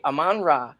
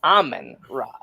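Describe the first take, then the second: First: "Amon-Ra" with stress on the second syllable, a-MON-ra; pronunciation demo. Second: "Amen Ra" with the first part run together like the word amen, AH-men rah; mispronunciation demo. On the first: Host quoting the announcer's name call, pronunciation demo. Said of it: "I say Amon-Ra like it's Amon-Ra". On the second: Host mimicking the announcer who drove him insane, mispronunciation demo. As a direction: stress the first syllable of "Amen Ra", as in amen. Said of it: "one full word as in Amen". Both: Shown as a demonstration.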